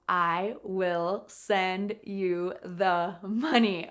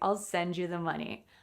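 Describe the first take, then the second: First: I will is said in full, emphatically. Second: I will is contracted to a short I'll. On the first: The speaker is repeating it after being asked. "Maybe if you said, "What did you say?"" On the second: An ordinary everyday statement. "in a normal way"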